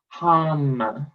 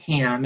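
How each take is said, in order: First: The vowel sounds like the one in 'hum'. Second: The vowel sounds like the one in 'ham'. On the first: The speaker calls it right. "the chant is hum" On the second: The speaker calls it wrong. "not ham"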